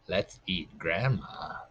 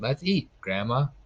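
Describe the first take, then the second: First: There is no pause before Grandma. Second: There is a pause before Grandma.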